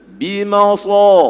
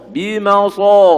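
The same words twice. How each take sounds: Both takes have the same delivery.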